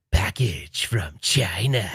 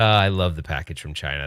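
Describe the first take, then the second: First: Slow, drawn-out catchphrase; impression of friend. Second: Said in the usual way. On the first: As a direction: stretch it out slowly like his catchphrase. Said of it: "He has to come on and be like". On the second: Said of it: "That was my favorite".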